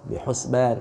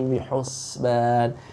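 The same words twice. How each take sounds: First: The s sound is cut off abruptly. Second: The s sound flows on and is prolonged. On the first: The speaker calls it wrong. "jangan sampai terpotong" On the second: The speaker calls it right. "tapi bihusban, biarkan dia mengalir dulu"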